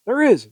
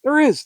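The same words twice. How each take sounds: First: Raised, insistent woman's retort; acted anxious heroine; her talking. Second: Very high, frantic retort; shrieky contradiction; high insistence. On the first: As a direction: contradict him in a higher voice. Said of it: "This is her talking". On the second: Acted. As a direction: snap back hysterically, pitched way up. Heroine contradicts Joel in acted quarrel.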